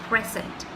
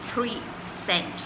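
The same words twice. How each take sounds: First: The stress is on the first syllable. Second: The stress is on the second syllable. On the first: It refers to the present time or being there. "we stress on the first syllable, which is present" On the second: It means to present something to someone. "you're stressing on the second part of it, which is sent"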